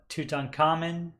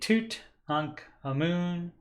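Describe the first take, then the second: First: The name is said the usual American way. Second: The name is said unlike the usual American way. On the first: The speaker calls it wrong. "normally your American pronunciation of his name is going to be" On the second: The speaker calls it right. "but it's actually"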